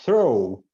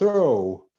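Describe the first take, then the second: First: The final gh is left silent. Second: The final gh is left silent.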